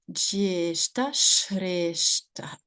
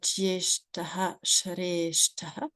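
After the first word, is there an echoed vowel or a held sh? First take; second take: held sh; echoed vowel. First: The first word stops short; the 'sh' is held. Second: The first word ends with an echoed 'ha' syllable. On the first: The speaker calls it right. "on va juste appuyer sur le ch" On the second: The speaker calls it wrong. "au lieu de dire"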